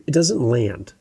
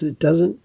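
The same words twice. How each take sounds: First: Said in the usual way. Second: "it doesn't" ending on a rising, questioning tune; upspeak rise. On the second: Shown as a demonstration. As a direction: lift the end of "it doesn't" like a question. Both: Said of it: "when you go up in your voice at the end of a sentence".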